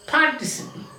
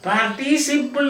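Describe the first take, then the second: First: The stress falls on the first syllable. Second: The stress falls after the first syllable. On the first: The speaker calls it right. "ആ വാക്ക് തുടങ്ങുന്നിടത്ത് നമ്മൾ ഇച്ചിരി ശകലം force" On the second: The speaker calls it wrong. "എന്ന് പറയരുത്"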